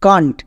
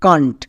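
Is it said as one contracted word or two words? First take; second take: contracted; contracted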